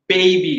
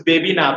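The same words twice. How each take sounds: First: বেবি with a gliding ei, "bay-bee"; বেবি said as English BAY-bee; correct diphthong. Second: বেবি with a short, unglided e; clipped pure e in both syllables of বেবি; wrong vowel. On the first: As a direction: glide from e to i in the first syllable of বেবি. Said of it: "বেবি না, কি হবে?". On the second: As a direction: say বেবি with plain e, no glide. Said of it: "Of course বেবি না". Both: Shown as a demonstration.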